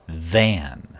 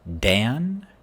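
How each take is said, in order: First: The word begins with a th sound. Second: The word begins with a d sound. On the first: The speaker calls it right. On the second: The speaker calls it wrong.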